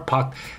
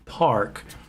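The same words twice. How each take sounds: First: The r sound after the vowel is dropped. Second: The r sound after the vowel is clearly pronounced. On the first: "Some Americans say park" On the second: "park with a er sound"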